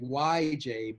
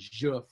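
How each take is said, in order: First: The J is said like an English y. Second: The J is said as a soft French zh. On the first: The speaker calls it wrong. "not the Y J" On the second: The speaker calls it right. "but the Je French J"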